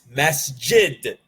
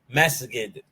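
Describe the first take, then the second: First: The jim is pronounced as a j sound. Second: The jim is pronounced as a g sound.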